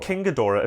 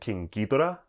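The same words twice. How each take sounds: First: The name is said in an English accent. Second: The name is said in a Japanese accent.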